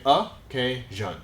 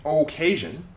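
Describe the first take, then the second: First: Occasion with a reduced first vowel, slow uh-KAY-zhun; schwa. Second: Occasion with a clear OH at the start, oh-KAY-zhun; full O vowel. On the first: Teacher corrects learners, occasion said slowly with schwa UH. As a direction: open occasion on a short UH, syllables spaced out. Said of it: "We say occasion". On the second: Teacher shows learners what not to say, occasion with full OH. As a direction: overpronounce the first vowel of occasion as OH. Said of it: "We don't say occasion". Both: Shown as a demonstration.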